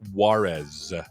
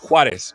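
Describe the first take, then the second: First: The name is said with an American pronunciation. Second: The name is said with a Spanish pronunciation. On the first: This is how Americans say the name. "as Americans would say" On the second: This is how the name is really said. "It's Juarez"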